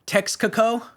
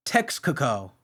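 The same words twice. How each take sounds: First: Texcoco? asked with a rising, doubtful tune; puzzled question. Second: Texcoco. said low and falling, settled; flat confirmation. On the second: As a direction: state Texcoco. plainly as final. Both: Shown as a demonstration.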